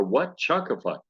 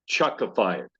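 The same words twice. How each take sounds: First: Chuckify asked in disbelief, rising; surprised question. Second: Said in the usual way. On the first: Retold or imitated. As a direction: repeat Chuckify as a puzzled question. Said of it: "I go". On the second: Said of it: "as somebody told me".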